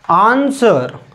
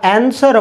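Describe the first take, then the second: First: The first vowel is a long open 'ah'. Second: The first vowel is a flat 'a' sound. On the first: The speaker calls it right. "तर याचा उच्चार कसा करायचा आन्सर" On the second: The speaker calls it wrong. "बरेच जण याला ॲन्सर म्हणतात, पण हे ॲन्सर बरोबर नाही"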